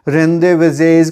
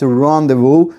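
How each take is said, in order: First: It starts with 'ren' and ends with a 'z' sound. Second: It starts with 'ron' and ends with 'voo'. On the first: The speaker calls it wrong. "रेंदेवेजेज करके कुछ बोल देते हैं" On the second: The speaker calls it right. "It's रॉन्डेवू"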